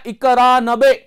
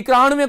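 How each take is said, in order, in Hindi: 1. अंत को b की आवाज़ से बोला जाता है। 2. अंत को v की आवाज़ से बोला जाता है। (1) "शब्द होता है इक्यानबे" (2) "इक्यानवे कोई शब्द नहीं होता"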